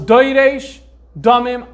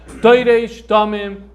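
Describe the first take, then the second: First: Slow, letter-by-letter deciphering; piecing the words together slowly; slow sounding out. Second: Said in the usual way. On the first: Shown as a demonstration. Teacher deciphering the manuscript for students, slow sounding out. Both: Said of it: "I'm gonna try to read it off this manuscript".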